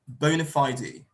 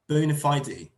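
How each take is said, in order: First: It is said with a British pronunciation. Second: It is said with a British pronunciation.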